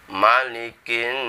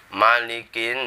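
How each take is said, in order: The two takes are said the same way.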